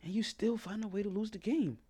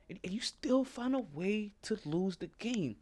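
First: Said in the usual way. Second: Whispered slowly, for effect; slow, breathy aside to the audience. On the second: Shown as a demonstration. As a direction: drop to a slow hush to sink the point in. Repeated line, second take whispered.

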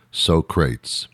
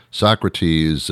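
First: Socrates read as "SO-crates"; Socrates mispronounced. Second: Said in the usual way. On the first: Retold or imitated. Host misreading a philosopher's name, Socrates mispronounced as "so-crates". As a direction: say Socrates in two beats, "so" plus "crates". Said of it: "Alex Trebek mispronounced Socrates". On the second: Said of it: "mispronounced Socrates".

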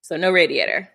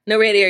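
First: Said in the usual way. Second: Radiator said louder, falling hard; emphatic repeat. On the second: Real, not acted. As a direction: land on "radiator" with a firm, louder fall.

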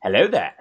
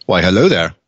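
First: Light Obi-Wan voice, barely changed; hint of a calm Jedi greeting; Obi-Wan impression. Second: Lightly voiced Obi-Wan Kenobi; a hint of a wise old Jedi; Obi-Wan impression. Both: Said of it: "gotten really good at that impression".

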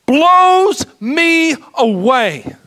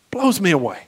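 First: Slow, tearful and loud, voice breaking; crying as he says it; choked up. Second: Said in the usual way. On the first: Real, not acted. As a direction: overcome with real tears. Preacher overcome telling of the cross.

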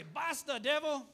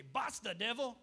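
First: "Basta" then "devil" shouted higher and much louder; shouted Dutch rebuke. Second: Firm "Basta, devil" with a sharp rise on "Basta"; firm Dutch rebuke. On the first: Preacher repeating the Dutch rebuke to his church, shouting. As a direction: bellow "Basta, devil" at the enemy with full force. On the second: Preacher teaching the Dutch rebuke to his church, firm. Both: Shown as a demonstration. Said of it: "I like how they say it in Dutch".

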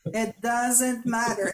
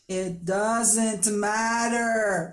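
First: Slow, calm. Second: Drawn out, slow. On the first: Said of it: "And then I go". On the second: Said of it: "I tell her". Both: Retold or imitated.

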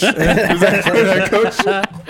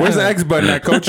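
First: Higher and louder, laughing plea to coach; louder mock clueless rookie. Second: Higher, laughing mock question to coach; mock clueless rookie. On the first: Rookie repeating his question to coach, louder and laughing. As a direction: push the lost gamer bit harder and louder. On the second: Rookie asking coach about buttons, laughing mock cluelessness. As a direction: play the lost gamer asking coach, laughing. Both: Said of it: "mocking himself as a rookie".

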